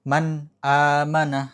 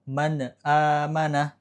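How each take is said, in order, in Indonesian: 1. Bunyi n jelas, tidak memantul. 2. Bunyi n memantul dengan gema. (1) "harusnya man" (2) "kepleset lidahnya jadi man amanah"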